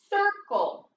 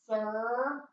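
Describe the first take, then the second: First: Said in the usual way. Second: "Circle" in two separate syllables, cir... cle; sounded out. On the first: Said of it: "What's the word?". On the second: Shown as a demonstration. Teacher decoding for pupils, "Circle" syllable by syllable. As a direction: break "Circle" apart with a long gap between syllables. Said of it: "What's it say?".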